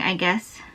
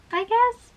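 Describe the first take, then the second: First: Said in the usual way. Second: "I guess" squeaked up high with a rising lilt; playful high-pitched "I guess" with an upturn; squeaky high "I guess". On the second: Acted. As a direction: toss off "I guess" in a tiny high voice. Repeats the phrase in a squeaky voice.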